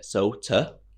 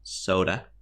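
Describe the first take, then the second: First: The consonant is a clear, crisp t sound. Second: The consonant is a soft, d-like sound. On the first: The speaker calls it wrong. "I was pronouncing it Sota" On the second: The speaker calls it right. "when it's actually soda"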